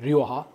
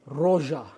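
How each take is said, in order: First: The first part is said as two syllables, "ree-o". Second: The first part is said as one syllable, "ro". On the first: The speaker calls it right. "Şaka yapıyorum tabii ki de" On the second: The speaker calls it wrong. "Bunun doğru telaffuzu arkadaşlar roja"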